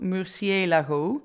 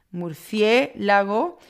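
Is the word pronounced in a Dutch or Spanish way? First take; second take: Dutch; Spanish. First: It is pronounced with Dutch sounds and stress. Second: It is pronounced with Spanish sounds and stress. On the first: The speaker calls it wrong. "wij zouden op zijn Nederlands bijna zeggen murciélago of zo" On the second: The speaker calls it right. "de klemtoon ... ligt op de E"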